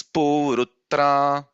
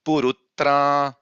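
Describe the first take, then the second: First: "purutra" chanted higher with "pu" held long; "purutra" intoned slowly, first syllable drawn out; elongated first vowel. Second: "purutra" chanted higher with a short "pu", long "tra"; "purutra" intoned slowly, only the last syllable drawn out; short first vowel. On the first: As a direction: stretch the "pu" of "purutra", then long "tra". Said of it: "we should actually extend". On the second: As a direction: chant "purutra" keeping "pu" unextended. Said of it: "it is not". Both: Shown as a demonstration.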